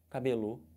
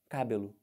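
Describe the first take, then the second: First: The stress is on the last syllable. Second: The stress is on the first syllable. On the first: "Vamos tentar aqui no final" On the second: "Do jeito que está escrito com acento"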